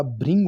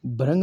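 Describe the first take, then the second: First: भृंग said "bhring", with a ri sound; correct pronunciation. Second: भ्रंग said "bhrang", with an a vowel; wrong pronunciation. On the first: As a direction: say भृंग with a clear "ri". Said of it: "भृंग होता है". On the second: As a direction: say भ्रंग as "bha-rang". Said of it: "भ्रंग नहीं होता". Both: Shown as a demonstration.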